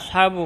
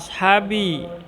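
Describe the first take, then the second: First: The word ends with a u vowel. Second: The word ends with an i vowel. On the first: The speaker calls it wrong. "Tidak boleh dibaca" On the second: The speaker calls it right. "kita fokus pada kata ashabi"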